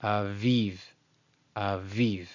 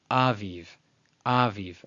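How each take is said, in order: First: Aviv as ah-VEEV; stress on marked syllable. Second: Aviv as AH-veev; wrong first-syllable stress. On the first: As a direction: lean on the VIV of aviv. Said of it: "No, no, no, no". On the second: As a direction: punch the opening A of aviv. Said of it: "contrary to, let's say, some people might say". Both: Shown as a demonstration.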